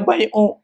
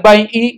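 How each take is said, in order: First: The word ends in a u vowel. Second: The word ends in an i vowel. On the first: "nggak boleh bai'u" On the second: "nggak boleh bai'i"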